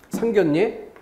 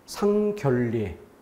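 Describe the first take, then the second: First: The middle consonants are pronounced as an n sound. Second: The middle consonants are pronounced as an l sound. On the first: The speaker calls it right. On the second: The speaker calls it wrong.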